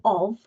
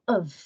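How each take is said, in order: First: The word is stressed with a full vowel. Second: The word is unstressed with a weak vowel. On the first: The speaker calls it wrong. "We don't say of" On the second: The speaker calls it right. "we say of. We don't stress the pronunciation of the word"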